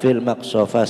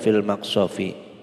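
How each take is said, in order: First: The final word ends with an a vowel. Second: The final word ends with an i vowel. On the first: The speaker calls it wrong. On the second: The speaker calls it right. "harus dibaca jar"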